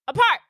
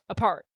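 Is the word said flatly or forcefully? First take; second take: forcefully; flatly. First: It is said forcefully, with great energy. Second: It is said flatly, with little feeling.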